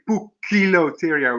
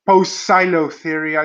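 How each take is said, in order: First: The C is sounded as a K. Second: The C is sounded as an S. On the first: The speaker calls it right. "you say Poecilotheria with a K" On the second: The speaker calls it wrong. "instead of Poecilotheria"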